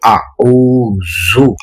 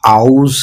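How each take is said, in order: First: The word ends with a short u vowel. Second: The word ends on the z sound. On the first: The speaker calls it right. "ये है आऊज़ु" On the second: The speaker calls it wrong. "ये आउज़ नहीं है"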